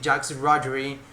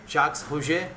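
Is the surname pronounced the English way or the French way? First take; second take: English; French. First: The surname is said with English sounds. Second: The surname is said with French sounds. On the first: This is how most people commonly say it. "most of the guys say" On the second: This follows the name's French origin. "he's French, right? So that would be Roger"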